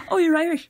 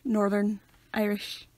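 First: High, loud mock excitement; gushing stranger. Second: Slow, deadpan correction; drawn-out, stony correction; emotionless deadpan. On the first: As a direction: imitate a delighted stranger. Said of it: "whiting people up". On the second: Shown as a demonstration. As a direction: say it dead, no emotion. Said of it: "no emotion".

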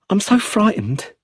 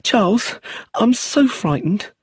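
First: High, fearful plea; a first frightened confession, voice lifted high. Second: Slower, higher, pleading fear; drawn out, clinging to him in fear; more frightened. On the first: Brenda confessing her fear to Charles, high and frightened. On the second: Brenda begging Charles for comfort, slow frightened plea. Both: A narrator's reading. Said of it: "Her fear was very real".

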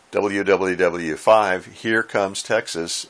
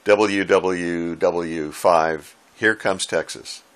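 First: Slow, deliberately stretched call sign; drawn-out call sign. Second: Very slow, stretched out call sign; drawn-out call sign. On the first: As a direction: spell it out slowly, as if repeating it yet again. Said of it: "kept responding with". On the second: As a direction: drag out each letter like a slow radio call. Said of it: "giving his call sign something like". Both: Retold or imitated.

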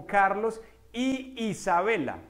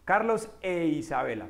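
First: "y Isabela" slowly, the two i sounds kept apart; clashing vowels. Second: "e Isabela" with an e before the i; corrected vowel. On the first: Teacher gives a Spanish example, "y Isabela" slow with doubled vowel. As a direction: repeat the i of "y" at the start of "Isabela". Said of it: "¿qué hacía uno con ese y Isabela?". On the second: Teacher fixes it to sound better, "e Isabela" flowing. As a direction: swap the clashing i for e in "e Isabela". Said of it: "Uno lo cambia por E". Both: Shown as a demonstration.

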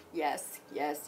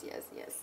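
First: Said in the usual way. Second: Soft unvoiced yes, yes; whispered in delight. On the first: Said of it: "repeats yes". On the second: Real, not acted. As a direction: breathe the yeses out. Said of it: "whispered repeat".

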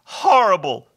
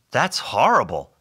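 First: High, loud creature voice; hammed-up creature lament; wailing hobgoblin. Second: Said in the usual way. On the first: A narrator's reading. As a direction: echo it as a mournful wail. Hobgoblin echoes Bob.

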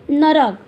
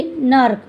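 First: नरक read as na-rak, with a full vowel between र and क; misspelled reading. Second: नर्क read as nark, with र and क joined; correct reading. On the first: Teacher reading the wrong spelling नरक to the class, na-rak. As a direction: say नरक in two open syllables, na-rak. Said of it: "अशुद्ध शब्द में नरक". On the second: Teacher giving the correct spelling नर्क to the class, nark. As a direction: say नर्क as one tight syllable, nark. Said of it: "तो शुद्ध शब्द में हम कैसे लिखेंगे?". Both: Shown as a demonstration.

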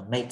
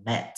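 First: "mate" with the letter-A vowel, rhyming with "late"; MATE with a long A. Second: "mat" with a short open vowel, as in "cat". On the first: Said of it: "thì nó sẽ không đọc là mate". (đọc "mate" với âm ây) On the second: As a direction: say "mat" without the ay glide. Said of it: "nhưng mà nó sẽ đọc là mat". (đọc "mat" với âm a ngắn) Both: Shown as a demonstration.

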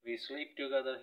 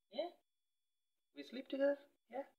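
First: Said in the usual way. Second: Much higher, rising question to the cat; high cooing question. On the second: Real, not acted. Cooing to her cat, much higher rising question. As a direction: lift it way up as if asking the kitty.

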